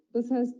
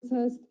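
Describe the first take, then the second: No difference in how they are said.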